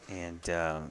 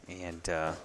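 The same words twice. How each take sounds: The two takes are said the same way.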